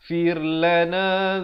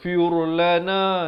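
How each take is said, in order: First: The r sound is light and thin. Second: The r sound is heavy and thick. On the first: The speaker calls it right. "ra ni dibaca nipis" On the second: The speaker calls it wrong. "Jangan baca firlana, itu salah"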